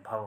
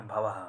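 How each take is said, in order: First: भव ending straight after व, no h; no visarga. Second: भवः with a breath h and echo vowel, "bhavaha"; visarga added. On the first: Teacher giving students the right form, भव without visarga. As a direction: say भव as "bhava", without "ha". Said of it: "विसर्ग नहीं लगा हुआ है". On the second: Teacher warning students off an error, भवः with visarga sounded. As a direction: say भवः as "bha-va-ha". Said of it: "ऐसे नहीं लगाना भवः". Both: Shown as a demonstration.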